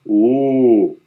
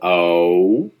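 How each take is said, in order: First: The vowel stays steady, like a pure monophthong. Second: The vowel glides, like a diphthong. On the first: "they do it in one syllable, sort of a monothong" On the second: "When we non-Northern Midwesterners try to say the sound O"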